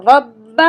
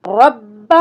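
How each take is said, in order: No difference in how they are said.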